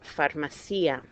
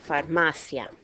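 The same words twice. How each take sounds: First: The stress falls on the syllable ci. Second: The stress falls on the syllable ma. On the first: The speaker calls it wrong. "I guarantee some of you have pronounced it farmacia" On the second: The speaker calls it right. "Second to last syllable. That's why this word is pronounced farmacia"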